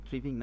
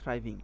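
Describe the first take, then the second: First: The first vowel sounds like 'ee'. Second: The first vowel sounds like 'eye'. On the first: The speaker calls it wrong. "থ্রিভিং না" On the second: The speaker calls it right. "এটা pronunciation আসলে থ্রাইভ"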